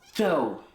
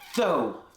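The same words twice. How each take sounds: First: It starts with a lisped TH sound. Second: The same.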